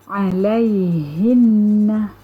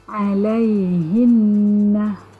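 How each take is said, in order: No difference in how they are said.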